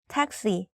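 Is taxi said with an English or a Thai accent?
English. The word is said with English sounds and stress. "like the same word, just like different accent"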